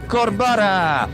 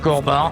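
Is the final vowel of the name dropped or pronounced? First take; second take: pronounced; dropped. First: The final vowel of the name is pronounced. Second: The final vowel of the name is dropped. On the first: The speaker calls it wrong. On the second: The speaker calls it right.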